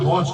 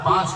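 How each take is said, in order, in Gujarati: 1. સ્વર ગોળાકાર 'o' અવાજ છે. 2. સ્વર ખુલ્લો 'aa' અવાજ છે. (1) "ઉત્તર ગુજરાતની ભાષામાં" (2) "આને પાંચ કહીએ આપણે શિષ્ટ ભાષામાં"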